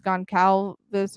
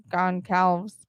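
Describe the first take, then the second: First: Goncalves ending in a full "-vess"; Goncalves with sounded final syllable. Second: Goncalves ending in "-alvs", no last vowel; Goncalves with clipped ending. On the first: Reader unsure of the victim's surname, trying Goncalves with "-vess" ending. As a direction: say Goncalves in three syllables, gon-KAL-vess. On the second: Reader unsure of the victim's surname, trying Goncalves as "gon-KALVS". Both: Shown as a demonstration. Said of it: "I don't know if it's Goncalves or".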